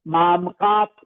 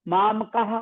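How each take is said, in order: First: The final visarga is sounded as a p. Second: The final visarga is sounded as a breathy h. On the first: "अगला जो पे आया है उसका उच्चारण भी साथ में शामिल कर सकते हैं" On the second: "माम कहा बोल सकते हैं"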